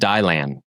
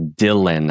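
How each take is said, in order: First: The first syllable sounds like 'dial'. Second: The first syllable sounds like 'dill'. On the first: The speaker calls it wrong. "is that right or wrong? That's wrong" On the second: The speaker calls it right. "your name is actually Dylan"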